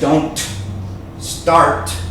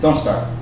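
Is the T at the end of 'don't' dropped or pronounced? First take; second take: pronounced; dropped. First: The T at the end of don't is pronounced. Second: The T at the end of don't is dropped. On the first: The speaker calls it wrong. "He didn't say don't start" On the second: The speaker calls it right. "this strong N makes the weak T disappear when you say it fast"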